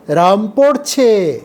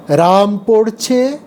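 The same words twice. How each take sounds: First: Slow রাম পড়ছে with পড়ছে falling to a close; slow, settled statement রাম পড়ছে; slow falling tune. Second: Slow রাম পড়ছে ending on a rise at পড়ছে; slow, questioning রাম পড়ছে; slow rising tune. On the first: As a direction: draw out রাম পড়ছে and let পড়ছে drop. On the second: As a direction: draw out রাম পড়ছে and lift পড়ছে. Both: Shown as a demonstration. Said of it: "এই দুটো শব্দের অর্থ কিন্তু আলাদা".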